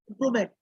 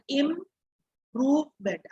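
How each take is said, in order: First: Said in the usual way. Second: "improvement" split into slow separate syllables. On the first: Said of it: "you will not speak like this". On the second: Shown as a demonstration. Teacher showing students how to read "improvement", slowly by syllables. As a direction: break "improvement" into im-prove-ment, slow and even. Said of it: "read in this manner".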